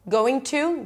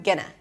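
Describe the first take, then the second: First: Both words are pronounced fully and separately. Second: The words are reduced and run together.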